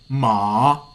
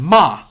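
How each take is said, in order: First: The pitch dips down and then rises. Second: The pitch falls from high to low. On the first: "like you're falling down and then rise" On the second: "like from a high to low"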